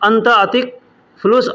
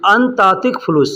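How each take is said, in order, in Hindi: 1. पहले दो शब्द अलग रखे जाते हैं। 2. पहले दो शब्द आपस में जुड़े हुए बोले जाते हैं। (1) "अलग बोलेंगे" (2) "अंत और अतिक को एक में मिला करके बोला जाता है"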